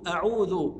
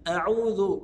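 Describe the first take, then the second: The two takes are said the same way.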